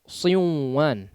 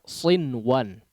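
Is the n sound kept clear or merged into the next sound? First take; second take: merged; clear. First: The n sound is merged into the w. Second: The n sound is pronounced clearly before w. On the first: The speaker calls it wrong. "tidak dibaca siwan ya" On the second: The speaker calls it right. "dibaca sinwan ya"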